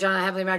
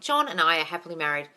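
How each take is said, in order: First: It is said in a flat, mechanical way. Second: It is said with sincere, believing warmth.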